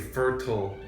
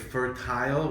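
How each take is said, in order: First: The second syllable has a weak, reduced vowel. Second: The second syllable has a clear eye vowel. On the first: It refers to farmland or the actual ground. "And if you say fertile" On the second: It refers to a woman's ability to have babies. "if you say fertile with a I sound"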